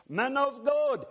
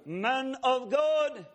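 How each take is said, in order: First: High called-out "Man of God" from far off; distant calling voice. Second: Slow, drawn-out high call of "God"; calling, closer. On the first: Stranger calling the preacher across the airport, high and far off. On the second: Stranger calling nearer through the airport, slow and high. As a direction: call it slowly, a little nearer. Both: Retold or imitated. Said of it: "the voice gets a little closer".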